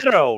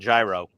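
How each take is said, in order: First: The word rhymes with hero. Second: The word does not rhyme with hero. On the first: This is the Greek way of saying it. "euro rhymes with hero" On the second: This is how people in the Bronx say it. "in the Bronx when you go up, you just said gyro"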